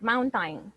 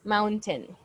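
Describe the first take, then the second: First: The second syllable sounds like time. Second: The second syllable is clear, like ten. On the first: The speaker calls it wrong. "But never say time, like mountain" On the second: The speaker calls it right. "If you want it to to sound very prominent, we can say mountain"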